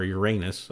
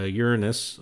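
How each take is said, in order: First: Uranus said as "your-AY-nus"; funny pronunciation. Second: Uranus said as "YOOR-uh-nus"; less funny pronunciation. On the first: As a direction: hit a long AY in Uranus. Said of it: "'cause it's funny". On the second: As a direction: put the stress up front in Uranus, weak middle. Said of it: "'cause it's less funny". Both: Shown as a demonstration.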